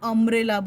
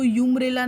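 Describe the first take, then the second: First: It begins with an 'uh' sound. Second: It begins with a 'yoo' sound. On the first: The speaker calls it right. "अम्ब्रेला बोलते हैं" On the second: The speaker calls it wrong. "हम उसको यूम्ब्रेला नहीं बोलते"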